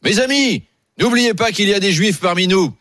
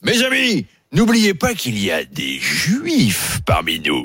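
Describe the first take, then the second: First: It is said in a neutral, friendly tone. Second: It is said in an insinuating, hostile tone.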